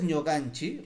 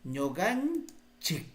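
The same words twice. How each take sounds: First: Ñoganchi ending in an open "chi"; "ñoganchi" starting on ñ, ending on a vowel; without final k. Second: Ñoganchik drawn out slowly, closing on k; "ñoganchik" stretched, crisp final k; careful model pronunciation. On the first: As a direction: say ñoganchi with no closing k. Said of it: "recuerda, es con ñ". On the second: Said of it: "así, porque el sufijo es anchik". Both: Shown as a demonstration.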